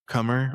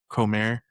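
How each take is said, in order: First: The name is pronounced the English way. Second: The name is pronounced the Spanish way.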